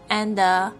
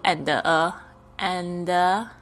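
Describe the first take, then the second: First: The two words run together as one unit. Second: The two words are said separately with a break. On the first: The speaker calls it right. "这个and 跟a 也可以连起来" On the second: The speaker calls it wrong. "你就不用and and"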